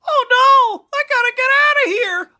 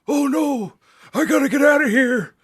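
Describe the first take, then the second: First: It is said in a young child's voice. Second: It is said in an old man's voice.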